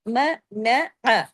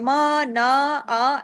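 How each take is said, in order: First: Each vowel is short, one beat. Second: Each vowel is stretched into a long aa. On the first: The speaker calls it right. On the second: The speaker calls it wrong. "अलिफ नहीं लगा देना, मा ना आ ऐसे नहीं करना"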